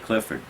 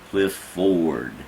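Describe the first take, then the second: First: The name is said quickly as one word. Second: The name is split into two separate parts. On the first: This is how the owner of the name says it. "if I say Clifford fast enough, it's not broken in two" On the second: The speakers were careful to get every syllable. "trying to make sure they were getting all the syllables there"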